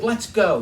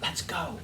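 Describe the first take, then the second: First: Said in the usual way. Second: Much softer, whispered "Let's go.". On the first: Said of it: "So she says". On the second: Retold or imitated. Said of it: "She whispered in my ear".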